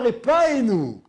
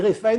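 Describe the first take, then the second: First: The middle consonant is a hard p sound. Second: The middle consonant is a soft f sound. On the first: The speaker calls it wrong. "on ne dit pas Repaenu dans la bracha" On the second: The speaker calls it right. "On dit Refaenu Hachem, Ken, sans dagesh"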